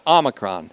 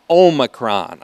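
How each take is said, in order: First: The first vowel is a short O sound. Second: The first vowel is a long O sound. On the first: The speaker calls it right. "Omicron is the short O pronunciation" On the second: The speaker calls it wrong. "I hear that mispronounced on the TV all the time"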